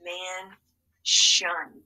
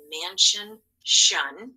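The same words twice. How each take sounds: First: "Man" then "shun" said apart; syllable by syllable; split into syllables. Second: "mansion" said whole, then "shun" alone and louder; word, then its ending sound. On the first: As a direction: sound out "Man, shun" in two clear beats. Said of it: "let's read this one". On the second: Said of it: "let's go ahead and drill these". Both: Shown as a demonstration.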